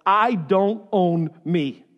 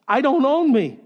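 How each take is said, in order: First: Each word set apart, slowly; slow and deliberate. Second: Louder, higher, emphatic declaration; forceful repeat. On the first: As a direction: spell it out word by word, "I don't own me". First take, deliberate statement of truth. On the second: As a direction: drive it home in one quicker push. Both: Shown as a demonstration.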